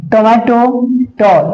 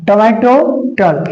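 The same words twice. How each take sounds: The two takes are said the same way.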